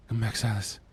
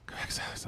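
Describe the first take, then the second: First: Said in the usual way. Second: Whispered plea. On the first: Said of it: "whisper repeat". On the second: Shown as a demonstration. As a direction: breathe it, no voice. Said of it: "unvoiced whisper".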